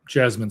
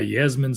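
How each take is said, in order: First: The name begins with a J sound. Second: The name begins with a Y sound. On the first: The speaker calls it right. "I'm pretty sure it's Jasmine Smith" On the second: The speaker calls it wrong. "I don't know why I pronounced that as Yasmin"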